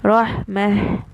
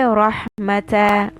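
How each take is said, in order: First: The word ends with a silent h sound. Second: The word ends with a short open a vowel. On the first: The speaker calls it right. "I'm going to say rahmah with this has sukoon" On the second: The speaker calls it wrong. "I will not say rahmata when I stop on this. That's wrong"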